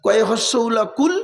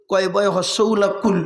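First: কুল with a plain k, rising at the end; spelled-out kul. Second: কুল with a throaty q, falling at the end; spelled-out qul. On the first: Preacher contrasting two words for listeners, plain-k kul. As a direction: spell it out, then say কুল with ordinary k. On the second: Preacher contrasting two words for listeners, throaty qul. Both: Shown as a demonstration. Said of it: "দুটো কুলের মধ্যে পার্থক্য আছে".

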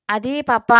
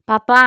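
First: A hint of hesitation, trailing off; mildly hesitant daughter; hesitant mumble. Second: A touch of sadness, పప్పా rising; mildly sad daughter calling her father. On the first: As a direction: falter on పప్పా, unsure. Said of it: "నసిగింది". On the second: Acted. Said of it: "అంది బాధగా".

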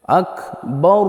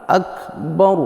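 First: আকবার ending on a rising hang; wrong rising Akbar. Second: আকবার drawn out with a rise; wrong rising Akbar. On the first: Teacher showing the wrong ending of আকবার. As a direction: let আকবার hang up at the end. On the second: Teacher repeating the wrong rising আকবার. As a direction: slowly lift আকবার at the end. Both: Shown as a demonstration. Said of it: "এইভাবে বলবেন না".

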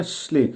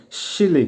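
First: শ্লি said with the i nearly silent, as shli; শ্লি pronounced shli, no audible i; barely sounded i. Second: শিলি said with a full i as shili, the way it should not sound; শিলি said slowly as shi-li, the contrast take; wrong full i. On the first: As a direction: softly clip শ্লি so the i is barely heard. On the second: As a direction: stretch শিলি into two syllables to show the mistake. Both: Shown as a demonstration. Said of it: "একেবারে শোনা যাবে না".

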